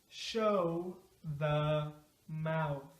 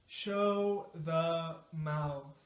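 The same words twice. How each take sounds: First: The phrase is said slowly and carefully. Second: The phrase is said at a moderate speed. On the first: "Let's say it slow at first" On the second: "now a little faster"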